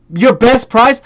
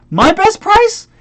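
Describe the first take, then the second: First: Mildly mocking repeat; scornful echo. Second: Slow, very high incredulous question; indignant echo. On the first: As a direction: echo the buyer's question with scorn. Echoing the buyer's question. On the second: Retold or imitated. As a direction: pitch soaring in outrage.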